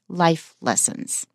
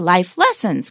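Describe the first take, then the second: First: The stress falls on the word life. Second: The stress falls on the word lessons. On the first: The speaker calls it right. "we say life lessons; lessons is not stressed" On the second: The speaker calls it wrong. "We don't say"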